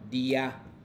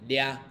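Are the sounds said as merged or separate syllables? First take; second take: separate; merged. First: Two separate syllables are said one after another. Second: The sounds are merged into a single syllable. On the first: "pronunciaciones sería di ya" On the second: "más como juntos"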